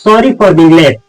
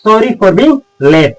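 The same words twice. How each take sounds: First: Said in the usual way. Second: Stretched out slowly, word by word; slow it right down for learners; slow repeat. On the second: Shown as a demonstration. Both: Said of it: "तो आप बोलिएगा".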